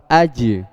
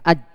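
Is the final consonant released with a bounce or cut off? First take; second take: bounce; cut off. First: The final consonant is released with an echoing bounce. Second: The final consonant is cut off without a bounce. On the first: The speaker calls it right. "memang butuh qalqalah" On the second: The speaker calls it wrong. "kalau ... nggak dimantulkan, nggak dikolkolah, dia nggak bakal sempurna"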